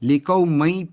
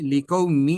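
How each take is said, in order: First: The word ends with an open 'mai' sound. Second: The word ends with a merged 'mee' sound. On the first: The speaker calls it wrong. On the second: The speaker calls it right.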